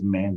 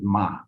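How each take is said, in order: First: The word ends with a clear n sound. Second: The word ends on the vowel, no n. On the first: The speaker calls it wrong. "That's an American accent" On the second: The speaker calls it right. "the N is silent"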